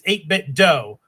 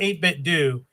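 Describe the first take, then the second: First: The last word ends with an 'oh' vowel. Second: The last word ends with an 'oo' vowel. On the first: The speaker calls it right. "it's eight bit dough, like Nintendo" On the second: The speaker calls it wrong. "it is not eight bit do"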